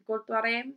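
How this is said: It is said with an Indian accent.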